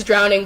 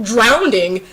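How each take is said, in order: First: Said in the usual way. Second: Drawn-out drowning with an intrusive D; mispronounced drowning. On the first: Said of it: "I know it's drowning". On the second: Shown as a demonstration. Showing how the slip forces its way up, drowning as drownding. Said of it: "it just comes up".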